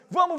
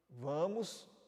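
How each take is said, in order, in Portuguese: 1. A palavra é dita rápido e alto. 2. A palavra é dita devagar e baixinho.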